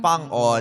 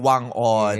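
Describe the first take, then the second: First: The name begins with an F sound. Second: The name begins with a W sound. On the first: This is how people in his home place say it. "ang totoong tawag pala o uh, bigkas dun sa pangalan niya sa kanilang lugar" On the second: This is the form outsiders are used to. "ang nakasanayan natin"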